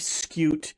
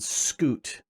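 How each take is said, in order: First: The vowel starts with a 'y' glide, like 'cute'. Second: The vowel is plain 'oo' with no 'y' glide. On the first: "just like cute, has that little diphthong in there of the Y U" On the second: "it makes sense to go ahead and pronounce it Scoot"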